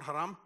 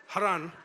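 First: Haram said with an m at the end, HA-ram; wrong pronunciation. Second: Haran said with an n at the end, HA-ran; correct pronunciation. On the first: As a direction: say Haram, ending on m. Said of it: "not Haram". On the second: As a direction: say Haran clearly, ending on n. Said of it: "Haran, not Haram". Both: Shown as a demonstration.

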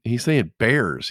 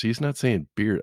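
First: "bears" drawn out slowly with an open eh; higher, emphatic "bears" as a correction; contrasted word. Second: "beer" with a clear ee vowel; higher pitch, careful contrast on "beer"; contrasted word. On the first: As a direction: spell out "bears" by stretching it. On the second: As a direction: set "beer" apart as the wrong word. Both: Retold or imitated.

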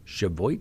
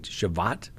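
First: Cheviot as shuh-VOYT, rising questioningly; tentative pronunciation. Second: Cheviot as chuh-VAHT, rising questioningly; alternative pronunciation. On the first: Host guessing at an Ohio town's name, Cheviot as shuh-VOYT. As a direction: say Cheviot with an "oy" in its ending, unsure. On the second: Host trying another guess at the town's name, Cheviot as chuh-VAHT. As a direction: say Cheviot with an "ah" in its ending, unsure. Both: Shown as a demonstration. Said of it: "if I pronounce that correctly".

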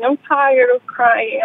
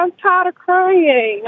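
First: Said in the usual way. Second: Close to tears. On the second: Real, not acted. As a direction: voice lifted high, on the verge of crying. Caller fighting tears over father.

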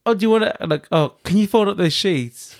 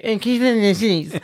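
First: Said in the usual way. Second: High, childish mimicry of a request; mocking parroting. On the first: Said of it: "he'll be like". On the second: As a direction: parrot it back in a silly high voice to wind them up. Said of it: "And then when I get".

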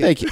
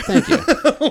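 First: Said in the usual way. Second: Much higher, drawn-out thank you; mock-flattered thank you; mock grateful. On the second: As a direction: gush a hammed-up thanks. Mock gratitude.

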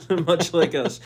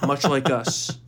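First: Nervous laugh through the words; laughing off fear. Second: Said in the usual way. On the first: Real, not acted. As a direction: laugh it off, slower. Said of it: "I laugh. I'm like, I'm nervous".

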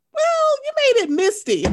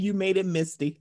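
First: High, loud teasing retort; mocking comeback. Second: Said in the usual way. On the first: Host voicing Kenya's put-down, high and loud. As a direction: needle her with the put-down. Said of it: "Why can't you say". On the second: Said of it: "when Kenya said".

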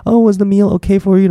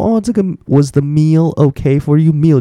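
First: Bright, much higher polite waiter question; high chirpy waiter. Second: Slow, careful read of the English question; slow teaching read. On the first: Retold or imitated. Teacher acting the English waiter asking, high and chirpy. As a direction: sing out the question like an eager waiter. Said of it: "你问他说". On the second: Shown as a demonstration. Teacher reading the waiter's line slowly for students. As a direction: model the question slowly for learners. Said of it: "就是你的餐点".

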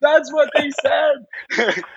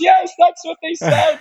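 First: Slow, high, crying-laughing that's what they said; overwhelmed, voice breaking with laughter; tearful laugh. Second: High, eager yes, that's what they said; rushing, thrilled agreement pitched high; excited confirmation. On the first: Real, not acted. Repeating the confirmation to the listener, slow and tearful-laughing. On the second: Retold or imitated. Confirming the doctor's words, high and thrilled.

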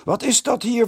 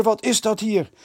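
First: High, loud outraged call; indignant call. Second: High, loud outraged repeat; repeated indignant call. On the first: The headmaster calls down at the noisy boys, indignant. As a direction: demand an answer from the stairs. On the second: The headmaster repeats his demand to the boys, indignant. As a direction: demand it again, insisting. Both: A narrator's reading. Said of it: "riep hij al van de trap".

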